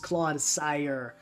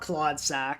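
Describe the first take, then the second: First: The name ends with the sound 'sire'. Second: The name ends with the sound 'sack'. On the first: The speaker calls it right. "It's Claude Sire" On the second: The speaker calls it wrong. "It's not Claude Sack"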